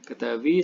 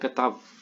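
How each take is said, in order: First: The word ends with a final ee vowel. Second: The word ends on the v sound. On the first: "ini masih ada yod yang diucapkan" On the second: "dalam Syria kata ketav"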